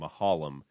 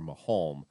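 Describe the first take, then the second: First: The name is said with three syllables. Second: The name is said with two syllables. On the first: The speaker calls it right. "the elongation of the name Mahalam, turning two syllables ... into three" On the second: The speaker calls it wrong. "I always thought it was Mahalm"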